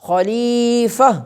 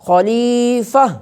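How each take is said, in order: The two takes are said the same way.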